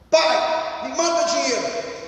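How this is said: It sounds like a rude, demanding order.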